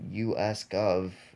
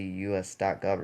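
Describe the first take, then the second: First: It is said without the word dot. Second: The word dot is spoken before gov. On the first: The speaker calls it wrong. "you don't say U S Gov" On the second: The speaker calls it right. "You say U S dot gov"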